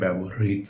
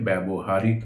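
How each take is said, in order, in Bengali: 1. মাঝে বাড়তি দল ছাড়া, ছোট করে বলা হয়। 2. মাঝে একটা বাড়তি 'হারি' বলা হয়। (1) "এটার উচ্চারণ হবে ব্যবহৃত" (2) "আমরা ভুল করে ব্যবহারিত উচ্চারণ করে থাকি"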